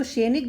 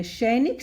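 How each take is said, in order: First: सैनिक with a closed e, like 'senik'; wrong pronunciation. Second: सैनिक with an open 'ai', like 'sainik'; correct pronunciation. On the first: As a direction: say सैनिक with 'se' in place of 'sai'. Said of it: "सैनिक गलत शब्द है". (सैनिक का गलत उच्चारण, 'सेनिक') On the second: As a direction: widen the first vowel of सैनिक to 'sai'. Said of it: "सैनिक सही शब्द है". (सैनिक का शुद्ध उच्चारण, 'सै' से) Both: Shown as a demonstration.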